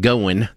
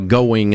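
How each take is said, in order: First: It is said in a Southern country accent. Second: It is said in a standard broadcast accent.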